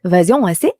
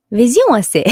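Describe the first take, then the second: First: Vision S A said the French way, ending on a rise; a convincing French accent. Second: Higher, louder mock French; French accent. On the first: Pretend. S1 retrying the French after the accent tip. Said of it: "Actually, that's really good". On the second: S1 imitating the French for the stream. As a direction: Vision S A in a playful French accent. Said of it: "You gotta get the accent down".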